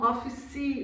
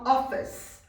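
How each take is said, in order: First: The word ends with an added vowel sound. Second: The word ends closed, with no added vowel. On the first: This is how Brazilian Portuguese speakers say it. "a gente faz um office no final" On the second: This is how native speakers say it. "eles falam office e, e fecha"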